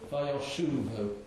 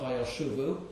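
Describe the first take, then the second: First: The stress falls on the shu syllable. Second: The stress falls on a syllable other than shu. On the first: The speaker calls it right. "it's stressed on the shin" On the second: The speaker calls it wrong. "is also not Vayoshuvu"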